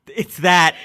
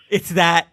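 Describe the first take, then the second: No difference in how they are said.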